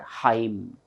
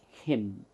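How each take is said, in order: First: The vowel is a long 'eye' sound. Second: The vowel is a short 'ih' sound. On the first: The speaker calls it wrong. "It is not Haim" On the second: The speaker calls it right. "it is him"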